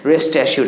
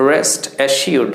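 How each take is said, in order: First: Said in the usual way. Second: "rest assured" drawn out very slowly, every sound of "assured" clear; careful pronunciation. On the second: Shown as a demonstration. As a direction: stretch "rest assured" so learners hear each sound. ("rest assured" খুব ধীরে, প্রতিটি ধ্বনি স্পষ্ট) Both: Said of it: "উচ্চারণটা হচ্ছে assured".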